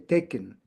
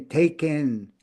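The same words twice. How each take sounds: First: The last syllable has a short schwa vowel. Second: The last syllable has a full, stressed vowel. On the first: The speaker calls it right. "We say taken" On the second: The speaker calls it wrong. "We don't say taken"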